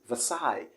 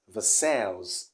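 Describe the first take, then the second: First: No S sound is heard at the end. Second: An S sound is heard at the end. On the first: The speaker calls it right. "the S here isn't pronounced" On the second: The speaker calls it wrong. "and not"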